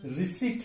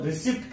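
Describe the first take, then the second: First: रिसीट with a silent p; long ee, no p in रिसीट; correct pronunciation. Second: रिसिप्ट with the p sounded; short i and audible p in रिसिप्ट; wrong pronunciation. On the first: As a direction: say रिसीट as ri-SEET. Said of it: "इसका सही उच्चारण". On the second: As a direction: say रिसिप्ट as ri-SIPT. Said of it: "लेकिन हम". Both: Shown as a demonstration.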